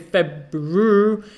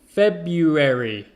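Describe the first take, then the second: First: The R after the B is pronounced. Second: The R after the B is left out. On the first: The speaker calls it wrong. "We don't say February" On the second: The speaker calls it right. "most people just say Feb-U-E-R-Y"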